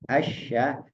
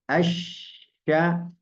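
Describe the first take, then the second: First: The middle consonant is short, without pressure. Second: The middle consonant is doubled and pressed. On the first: The speaker calls it wrong. "Kalau tidak tidak kasih tasdid itu kurang" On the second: The speaker calls it right. "Tapi kalau tekan sedikit aja"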